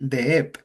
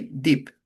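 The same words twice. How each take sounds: First: Deep split into two syllables with a vowel inside; wrong pronunciation. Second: Deep as one short syllable; correct pronunciation. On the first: Teacher shows students the wrong two-syllable deep. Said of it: "We don't say deep". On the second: Teacher models for students the right one-syllable deep. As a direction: say deep as a single clean syllable. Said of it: "We say deep". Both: Shown as a demonstration.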